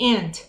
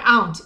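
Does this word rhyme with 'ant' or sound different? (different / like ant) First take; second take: like ant; different. First: The word sounds the same as ant. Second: The vowel differs from the vowel in ant. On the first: The speaker calls it right. "e sim and" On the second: The speaker calls it wrong. "não é aunt"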